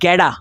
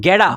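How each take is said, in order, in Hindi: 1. t एक तेज़ flap आवाज़ बन जाता है। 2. t एक तेज़ flap आवाज़ बन जाता है।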